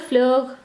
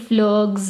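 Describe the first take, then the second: First: The final S sound is silent. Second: The final S sound is pronounced. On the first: The speaker calls it right. "simply without this" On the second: The speaker calls it wrong. "I'm not saying fleurs in like like we do in English"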